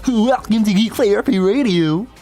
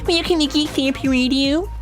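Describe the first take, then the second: First: The voice sounds like a goofy cartoon character. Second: The voice is put on very high-pitched. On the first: "Why'd I sound like Goofy?" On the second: "Why is my voice so high as a geek?"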